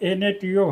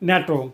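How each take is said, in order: First: Each letter is said separately, one by one. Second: It is said as a single two-syllable word. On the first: The speaker calls it wrong. "কিন্তু এর উচ্চারণ এনএটিও হবে না" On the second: The speaker calls it right. "এর উচ্চারণ হবে একটি শব্দের ন্যায়"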